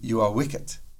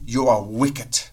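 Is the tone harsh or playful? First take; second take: playful; harsh. First: It is said softly and playfully. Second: It is said directly, loudly and harshly.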